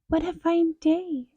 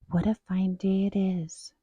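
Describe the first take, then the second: First: It is said in a high squeaky voice. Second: It is said in an ordinary voice.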